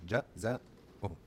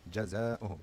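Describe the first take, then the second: First: Jazauhum stretched out very slowly, each syllable held; sounded out slowly. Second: Said in the usual way. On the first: Shown as a demonstration. Teacher sounding out the word slowly for learners. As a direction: drag out Jazauhum so the fatha is heard. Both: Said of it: "You start noticing the fatha".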